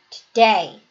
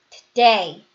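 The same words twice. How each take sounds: Both takes have the same delivery.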